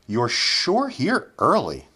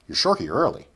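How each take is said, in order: First: The sentence is spoken at a slow pace. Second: The sentence is spoken at a quick pace. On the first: "first we'll say them slowly" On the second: "then we'll say them quickly"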